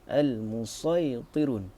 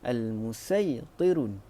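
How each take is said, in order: First: The s is a heavy, emphatic s sound. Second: The s is a plain, light s sound. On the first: "ataupun huruf sad" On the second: "membacanya dengan huruf sin"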